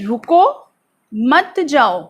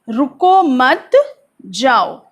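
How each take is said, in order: First: There is a pause after रुको. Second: There is a pause after मत.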